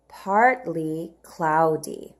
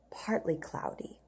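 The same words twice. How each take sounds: First: Partly cloudy said slowly, stressing partly; slow model read. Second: Soft whispered Partly cloudy. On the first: Teacher reading partly cloudy slowly to children. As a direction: sound it out slowly. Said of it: "Let's read the words together". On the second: Teacher whispering partly cloudy to the class, whisper. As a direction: whisper it like a secret. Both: Shown as a demonstration.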